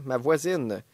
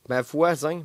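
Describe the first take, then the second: First: "voisine" with a clear final n sound; corrected "voisine". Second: "voisin" read as written, nasal ending without final n; misreading "voisin". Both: Shown as a demonstration. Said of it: "c'est vraiment écrit ma voisin".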